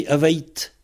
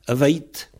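The two takes are said the same way.

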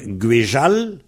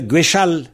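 First: The middle consonant is a voiced 'j' sound. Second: The middle consonant is a voiceless 'sh' sound. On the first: The speaker calls it right. "il vaut mieux dire Guéjal" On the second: The speaker calls it wrong. "dans Guéchal, il y a une mauvaise liaison"

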